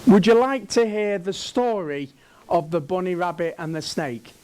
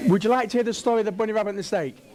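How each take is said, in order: First: Said in the usual way. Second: Very fast, words run together; rapid-fire repeat. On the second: Real, not acted. Speaker re-asking the prompted audience, rapid-fire. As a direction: rattle the question off in one breathless rush.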